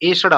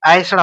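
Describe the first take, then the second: First: The first vowel is the plain 'e'. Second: The first vowel is the diphthong-like 'ai'. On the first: The speaker calls it right. "ये वाला एसड़ा आपका सही होगा" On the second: The speaker calls it wrong. "ये ऐ की मानता है ना, ऐ, ये गलत है"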